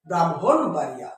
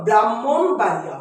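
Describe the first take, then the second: First: ব্রাহ্মণ বাড়িয়া said as "bram-hon baria"; lower, with m then h in ব্রাহ্মণ; corrected pronunciation. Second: ব্রাহ্মণ বাড়িয়া said as "bram-mon baria"; long double m and no h in ব্রাহ্মণ; common mispronunciation. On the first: Teacher correcting students, ব্রাহ্মণ বাড়িয়া as "bram-hon baria". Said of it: "ব্রাহ্মণ হবে". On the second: Teacher quoting students' mistake, ব্রাহ্মণ বাড়িয়া as "bram-mon baria". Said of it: "ওটা মন হবে না". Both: Shown as a demonstration.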